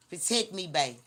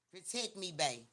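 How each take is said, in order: First: Louder, pushy plea of protect me; playful insistent plea; mock demanding sweet talk. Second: Softer, teasing plea of protect me; quiet mocking plea for protection; mock sweet talk. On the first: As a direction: demand protection in a hammed-up lover tone. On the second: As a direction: coo it like a needy partner, half joking. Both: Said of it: "That's how you want me to talk".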